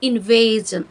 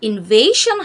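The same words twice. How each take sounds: First: The ending is said with a 'zhun' sound. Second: The ending is said with a 'shun' sound. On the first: The speaker calls it right. "শন উচ্চারণ না করে জন উচ্চারণ করব" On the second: The speaker calls it wrong. "তবে উচ্চারণটা আসলে ইনভেশন হবে না"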